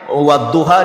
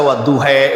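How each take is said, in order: First: The word ends with an open 'ah' vowel. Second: The word ends with an 'eh' vowel.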